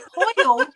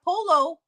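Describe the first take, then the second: First: It is said as the Spanish pollo. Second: It is said as the English polo. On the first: The speaker calls it right. "it's a pollo, pollo" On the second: The speaker calls it wrong. "not polo"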